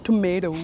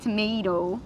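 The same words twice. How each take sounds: First: "Tomato" copied as tom-AY-doh with a D; mimicking American tomato. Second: "Tomato" said tom-AY-doh with a D sound; American tomato. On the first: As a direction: echo "Tomato" with the American D sound. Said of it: "You add a D". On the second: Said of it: "How do you say tomato?". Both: Shown as a demonstration.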